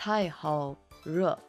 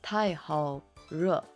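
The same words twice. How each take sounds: First: It is said with an R sound. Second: The same.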